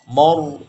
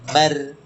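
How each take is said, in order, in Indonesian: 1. Vokal m dan r sama-sama terdengar berat. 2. Vokal m dan r sama-sama terdengar ringan. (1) "maju kena itu ketika terbaca ro yang tebal dibaca mo" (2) "kalau dibaca ma, tapi rohnya tidak tebal"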